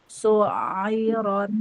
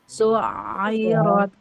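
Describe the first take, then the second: The two takes are said the same way.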